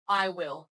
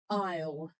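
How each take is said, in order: First: Both words are said fully and separately. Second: The two words are merged into one short syllable. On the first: The speaker calls it wrong. "not I will" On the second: The speaker calls it right. "it's normally I'll"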